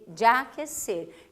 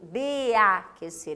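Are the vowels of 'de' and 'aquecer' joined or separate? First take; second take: joined; separate. First: The two vowels are merged into one. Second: The two vowels are kept separate. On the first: The speaker calls it right. "é de, de aquecer" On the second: The speaker calls it wrong. "eu não uso de aquecer"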